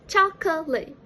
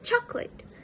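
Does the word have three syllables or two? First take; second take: three; two. First: The word is said with three syllables. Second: The word is said with two syllables. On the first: "The standard pronunciation is chocolate" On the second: "The middle schwa sound was omitted"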